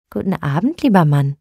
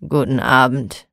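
First: Friendly. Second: Low, sullen "Guten Abend" grunted without looking up; grumpy grumble. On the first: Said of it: "sagte freundlich". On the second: Grumpy broom-maker answering Frau Holle, low sullen mutter. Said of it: "brummte mürrisch". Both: A narrator's reading.

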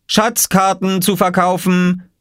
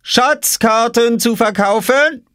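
First: Hoher, langsamer Verkäuferruf eines Jungen; ausrufend. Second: Sehr hoher, langsamer Verkäuferruf; ausrufend. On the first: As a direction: ruf es gedehnt und hoch wie ein Marktschreier. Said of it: "rief Oskar". (langsam gedehntes, hohes Ausrufen) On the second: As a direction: ruf es gedehnt und ganz hoch wie ein Marktschreier. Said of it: "rief Oskar hinter seiner Obstkiste". (gedehntes Ausrufen in sehr hoher Jungenstimme) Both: A narrator's reading.

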